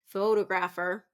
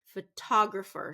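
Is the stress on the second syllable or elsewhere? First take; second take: elsewhere; second syllable. First: The stress is not on the second syllable. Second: The stress is on the second syllable. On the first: The speaker calls it wrong. "we don't want that one" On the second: The speaker calls it right. "second syllable stress"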